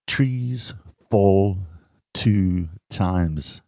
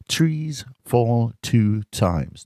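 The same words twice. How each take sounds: First: Said in the usual way. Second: Very slow, each word separate; slow and deliberate. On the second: Shown as a demonstration. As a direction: stretch "Trees fall two times" out slowly. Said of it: "Listen to the t".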